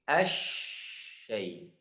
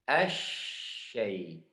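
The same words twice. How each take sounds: The two takes are said the same way.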